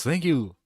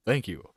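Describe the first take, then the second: First: Bright radio host thanks. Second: Lower, smooth radio host voice; deep radio voice. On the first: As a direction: thank them like an on-air host. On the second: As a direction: drop into a low announcer voice. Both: Shown as a demonstration. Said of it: "You got the radio voice".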